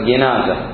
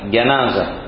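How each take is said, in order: First: The first syllable is said with an 'i' vowel. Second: The first syllable is said with an 'a' vowel. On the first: It refers to the bier carrying the body. "الكسر جنازة" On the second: It refers to the dead person. "الفتح جنازة"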